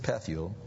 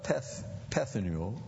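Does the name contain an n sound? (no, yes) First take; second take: no; yes. First: The name is said without an n sound. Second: The name is said with an n sound. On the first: The speaker calls it right. "That's better. There's no N there" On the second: The speaker calls it wrong. "I mispronounced it"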